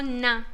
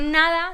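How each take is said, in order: First: "na" for "nada", last syllable dropped; clipped "nada". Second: Said in the usual way. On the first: Shown as a demonstration. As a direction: say "na", cutting "nada" short. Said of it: "no decimos nada". ("na" en vez de "nada", sin la última sílaba) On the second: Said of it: "decimos na".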